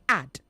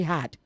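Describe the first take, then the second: First: The word starts with a vowel sound. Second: The word starts with an h sound. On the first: The speaker calls it right. "Say add" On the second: The speaker calls it wrong. "don't add H where it's not present. So don't say had"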